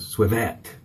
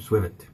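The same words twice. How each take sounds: First: The name is said with a French-sounding pronunciation. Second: The name is said with ordinary English pronunciation.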